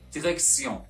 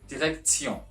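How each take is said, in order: First: The t is pronounced as an s sound. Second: The t is pronounced as a t sound. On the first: The speaker calls it right. "the letter T pronounced as C" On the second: The speaker calls it wrong. "not direction"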